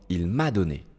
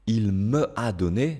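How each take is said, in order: First: The vowel of me is dropped and joined on. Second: The vowel of me is kept before a. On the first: The speaker calls it right. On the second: The speaker calls it wrong.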